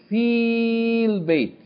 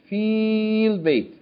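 The two takes are said the same way.

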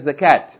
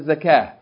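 First: The word ends with a t sound. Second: The word ends with an h sound. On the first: The speaker calls it wrong. "you don't say zakat. That's not correct" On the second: The speaker calls it right. "No, you have to pay the zakah"

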